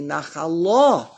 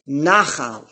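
First: Nachala with a strong final LA; stress on last syllable. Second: Nachal slowly, with NA accented; stress on first syllable. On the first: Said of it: "with the emphasis under the lamed". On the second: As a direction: set out nachal slowly as NA-khal. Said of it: "If it will be a stream". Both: Shown as a demonstration.

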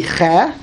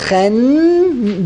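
First: Che cut off before any n sound; stopped short. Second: Chen held long on its final n; flowing. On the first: Teacher showing the stop a dot makes, che broken off. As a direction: stop after the open vowel of che. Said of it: "you gotta stop". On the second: Teacher showing how it's supposed to flow, sustained n. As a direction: let the n of Chen hum on toward the next syllable. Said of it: "you're supposed to flow". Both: Shown as a demonstration.

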